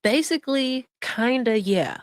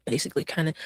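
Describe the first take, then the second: First: Mock echo. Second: A quiet, lower, mumbled echo of her hedge; mock-quiet imitation of her evasive answer; mocking mumble. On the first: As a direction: parrot her words sarcastically. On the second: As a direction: mutter it back as if catching her dodge. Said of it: "Oh, wait".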